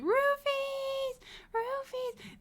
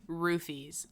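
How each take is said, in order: First: Mock scream. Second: Said in the usual way. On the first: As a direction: wail it out in falsetto, imitating a scream. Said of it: "and I'm screaming". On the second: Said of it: "I'm screaming".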